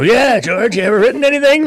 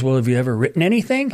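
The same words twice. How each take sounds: First: Much higher, louder teasing copy of a famous singer. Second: Said in the usual way. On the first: Retold or imitated. [name] mocking [name] by echoing the wife, much higher and louder. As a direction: echo her question in a put-on, raised mocking voice. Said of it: "Like [name], right?". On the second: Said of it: "And she goes".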